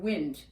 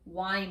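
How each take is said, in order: First: The vowel is a short i sound. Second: The vowel is a long i sound. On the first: Moving air. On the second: To turn a clock's mechanism.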